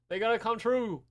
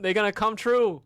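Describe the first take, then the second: First: Said in the usual way. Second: Booming declaration, voice pushed up; loud proclaiming. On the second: Real, not acted. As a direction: proclaim it to the whole chat.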